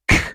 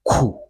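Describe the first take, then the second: First: The k sound is said alone. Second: The k sound is followed by a vowel. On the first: The speaker calls it right. "K, k" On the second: The speaker calls it wrong. "not ku. The sound is not ku"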